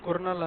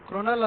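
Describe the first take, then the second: First: The vowel comes before the r: Kur-nal. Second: The r comes before the vowel: Kru-nal. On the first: The speaker calls it wrong. "ಕುರ್ನಾಲ್ ಅಂತ ಯಾರಪ್ಪ ನಿನ್ಗೆ ಹೇಳಿದವನು" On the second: The speaker calls it right. "ಕೃಣಾಲ್ ಅಂತ ಹೇಳು ನೀನು"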